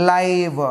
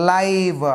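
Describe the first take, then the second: Both takes have the same delivery.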